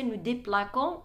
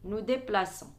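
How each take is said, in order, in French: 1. La consonne du milieu est un son k dur. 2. La consonne du milieu est un son s doux. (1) "Pour ne pas euh, prononcer nous déplaquons" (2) "c'est la cédille au niveau de nous et vous"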